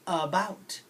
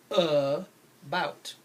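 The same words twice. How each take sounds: First: About with a lazy uh first; correct about. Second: About slowed, each letter voiced as spelled; wrong spelling-style about. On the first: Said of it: "The word is". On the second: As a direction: say about the wrong way, slow and drawn. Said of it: "they spell it about, like that". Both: Shown as a demonstration.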